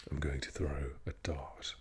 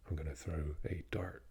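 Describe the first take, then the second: First: Posh English "dart", R dropped, T sounded; royal-style English accent with a crisp T in "dart". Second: West Country or American R in "dart"; American-West Country accent. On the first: Showing posh English pronunciation, posh accent with no R in "dart". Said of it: "in the posh English, you would pronounce the T". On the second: Showing the American contrast, accent with R sounded in "dart". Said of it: "With the American and the West Country". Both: Shown as a demonstration.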